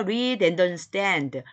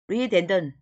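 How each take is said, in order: First: Every syllable is said slowly and clearly. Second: It is said fast, with syllables run together.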